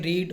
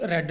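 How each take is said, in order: First: The vowel is long, like in 'reed'. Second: The vowel is short, like in 'red'. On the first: It is the present form of the verb. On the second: It is the past form of the verb.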